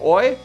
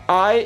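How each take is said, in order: First: The vowel sounds like 'oi', Australian style. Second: The vowel is a plain standard 'eye' sound. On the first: "I is like oi" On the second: "I is like oi"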